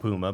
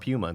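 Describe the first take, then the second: First: It is said the American way. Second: It is said the European way. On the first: This is how people here say it. "We what? call it Puma" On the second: This is how the company's own people say it. "but they call it Puma"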